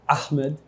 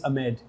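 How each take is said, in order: First: The name is said with an Arabic accent. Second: The name is said with an American accent. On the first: "In Arabic-speaking country, it would be Ahmed" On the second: "In America, it's Ahmed"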